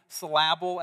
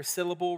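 First: "syllable" said sy-LA-ble, stress on the second part; wrong stress. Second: "syllable" said SYL-la-ble, stress on the first part; correct stress. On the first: Pastor joking to the church, "syllable" stressed wrong. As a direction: put the stress on the middle of "syllable" as a joke. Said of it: "take the emphasis off of the wrong". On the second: Pastor correcting himself for the church, "syllable" stressed right. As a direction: fix it: stress the start of "syllable". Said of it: "as they like to say, or syllable". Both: Shown as a demonstration.

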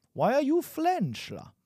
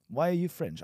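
First: High-pitched, hammed-up attempt at a French accent; botched French accent. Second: Said in the usual way. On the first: Teacher botching a French accent on an example sentence, mock accent. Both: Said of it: "I wanted to say with a French accent".

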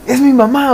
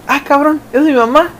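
First: High-pitched, alarmed realization; it sinks in. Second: High-pitched, startled double take with a questioning rise; startled realization. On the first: Kid realizes it is mom at the Six, alarmed. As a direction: say it as the penny drops. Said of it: "luego te cae el veinte". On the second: Kid spots mom pulling up at the Six, startled. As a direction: blurt it as first dawning disbelief. Acting out spotting mom arriving. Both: Acted.

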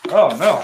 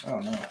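First: Mock panic. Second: Said in the usual way. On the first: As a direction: ham up the dismay.

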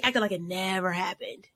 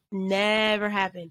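First: Said in the usual way. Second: Slow, drawn-out stress on "Never"; emphatic repeat. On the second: Real, not acted. Guest stressing he dropped it, slow and emphatic.

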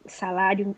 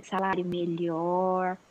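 First: Choked mid-word, throat catching; choking while talking, word cut off; choking on a drink. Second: Said in the usual way. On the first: Real, not acted. (engasgada ao falar) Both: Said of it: "desculpa, gente, engasguei aqui".

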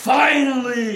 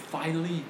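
First: Finally stretched very slowly and louder like a promo; The Rock finally. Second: Finally said softer and lower, briefly. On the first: Podcaster showing friends how he did The Rock's call, slow and loud. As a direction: drag out finally like a wrestler on the mic. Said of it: "อย่างนี้เลยนะ". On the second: Podcaster sets up his childhood promo, softly. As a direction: toss off finally quietly. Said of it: "finally อย่างนี้เลยนะ". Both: Shown as a demonstration.

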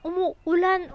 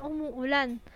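First: Umuulan said louder, falling firmly; a touch of drama on umuulan; emphatic umuulan. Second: Said in the usual way. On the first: Shown as a demonstration. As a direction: lean on umuulan the first time.

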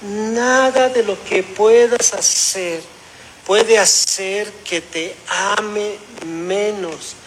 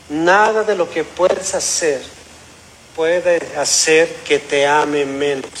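First: "Nada de lo que puedas hacer" drawn out very slowly; slow fatherly emphasis. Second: Slow, measured words from a father; tender fatherly reassurance. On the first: ("ame menos" muy lento, con énfasis paterno) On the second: Father reassuring his son, retold. (consuelo paterno, lento y sereno) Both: Retold or imitated.

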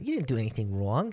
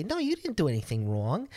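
First: Put-on quick New York accent on "You didn't do anything wrong". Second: Lightly voiced girl reassuring him; "No, you didn't do anything wrong" said lightly, no accent; girl's reassurance. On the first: Demoing the girl's New York accent, quick and clipped. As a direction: rattle it off fast like a New Yorker. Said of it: "it's not just an Italian accent". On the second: Girl reassuring him after the library, lightly voiced. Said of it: "I was like".

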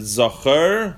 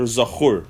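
First: Zachor with an unstressed "-er" ending, "ZAW-kher"; first vowel option. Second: Zachur with an "oo" ending; Zachur, last vowel a clear "oo"; second vowel option. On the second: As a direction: say Zachur as "za-KHOOR". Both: Shown as a demonstration. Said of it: "The question is, this word, is it supposed, is it Zachor".

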